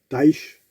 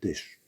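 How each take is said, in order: First: The vowel sounds like 'eye'. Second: The vowel sounds like 'eh'. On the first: The speaker calls it wrong. "je dis euh, Taïch" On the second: The speaker calls it right. "au lieu de dire Tèche"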